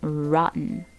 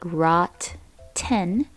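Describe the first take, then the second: First: The word flows with a soft D-like middle sound. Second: The word is split with two clear T sounds. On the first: "many people don't say these two T sounds... more like a D sound" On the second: "if you split it, it sounds like rot ten"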